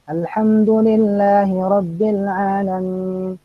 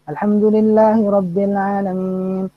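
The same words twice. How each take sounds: First: It is recited slowly but flowing smoothly. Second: It is recited quickly, running on without pause. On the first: "ya sekarang lambat" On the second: "kemudian eh, cepat"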